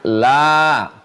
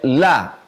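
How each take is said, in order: First: The vowel is held long. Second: The vowel is cut short. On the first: It means 'not'. "La kalau dia panjang" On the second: It means 'surely'. "Tapi kalau pendek"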